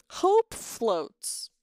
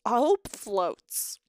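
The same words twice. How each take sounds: First: Said in the usual way. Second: Slow, drawn-out sarcastic title drop of "hope floats"; mock dramatic title. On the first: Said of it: "uh, hope floats". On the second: Shown as a demonstration. Streamer mocking the movie title to chat, slow and sarcastic. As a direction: stretch "hope floats" out slowly, dripping with irony.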